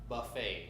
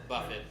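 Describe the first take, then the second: First: The word is said in a French-sounding way. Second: The word is said in a plain English way. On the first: It refers to an all-you-can-eat meal. The speaker calls it right. "it's pronounced buffet" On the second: It refers to a wealthy businessman. The speaker calls it wrong. "not Buffett"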